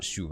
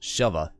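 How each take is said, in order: First: The first syllable sounds like 'shoe'. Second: The first syllable sounds like 'shove'. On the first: The speaker calls it wrong. "I guess I was pronouncing it wrong. I guess it's not shuva" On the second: The speaker calls it right. "For shoving. Or I guess it would be shova"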